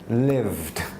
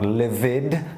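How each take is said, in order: First: The ending is a plain 'd' sound. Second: The ending is an extra syllable, 'id'. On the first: The speaker calls it right. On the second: The speaker calls it wrong. "Not livid"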